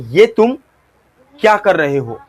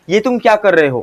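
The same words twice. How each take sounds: First: It has a pause after 'ये तुम'. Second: It is said quickly with no pause. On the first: It builds tension about what happens next. The speaker calls it right. "यहां पे आपको pause लेना है" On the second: It sounds like an ordinary line. The speaker calls it wrong. "अगर आप इसी dialogue को fast बोलोगे, लाइक ऐसा"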